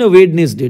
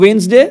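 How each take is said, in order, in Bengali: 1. প্রতিটি বর্ণ উচ্চারিত হয়: Wed-nes-day, তিনটি সিলেবল। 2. এটি স্বাভাবিক কথ্য উচ্চারণে বলা হয়, দুটি সিলেবল হিসেবে। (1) "স্পেলিং এর জন্য" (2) "প্রোনাউন্সিয়েশনের জন্য"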